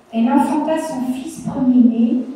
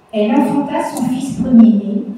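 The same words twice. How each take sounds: Both takes have the same delivery.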